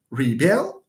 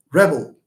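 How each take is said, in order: First: "Rebel" stressed on the second syllable. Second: "rebel" punched louder on the first syllable; stress on first syllable. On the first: Teacher contrasting verb with noun, second-syllable stress on "Rebel". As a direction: put the weight on the end of "Rebel". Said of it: "second syllable that gets stressed". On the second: Teacher contrasting noun with verb, loud first-syllable stress on "rebel". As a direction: hit the opening of "rebel" hard. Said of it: "the noun". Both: Shown as a demonstration.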